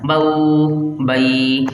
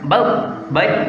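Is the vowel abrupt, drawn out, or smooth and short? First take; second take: drawn out; abrupt. First: The vowel glide is stretched out long. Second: The vowel glide is cut off with a jolt. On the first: "ये खींचना हो गया।" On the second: "तो ये होता है झटका देना।"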